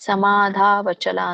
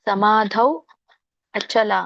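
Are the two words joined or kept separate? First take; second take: joined; separate. First: The two words are fused into one. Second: The two words are said separately. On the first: "ಕೂಡಿ ಹೇಳಿದ್ರು ಬರುತ್ತೆ" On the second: "ಸಮಾಧೌ ಅಚಲ ಅಂತ ಹೇಳಿ"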